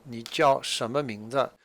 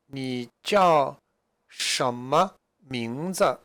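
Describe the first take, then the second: First: Said in the usual way. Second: "什么名字" drawn out slowly, each syllable clear; slow model question. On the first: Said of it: "What are you called?". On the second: Shown as a demonstration. Teacher reading Zhang Laoshi's question slowly to students. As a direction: spell out "什么名字" slowly for learners. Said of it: "Zhang Laoshi asked the question here".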